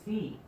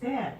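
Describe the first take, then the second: First: The letter is said the American way. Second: The letter is said the Canadian way. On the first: "in New York where they pronounce Z as Z" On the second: "in Canada where they pronounce Z as Z"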